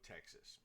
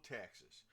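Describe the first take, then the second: First: Said in the usual way. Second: Texas drawn out in a lazy Southern twang; southern accent. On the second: Shown as a demonstration. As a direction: say Texas like a Tennessee local would. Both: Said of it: "you say it with that southern accent".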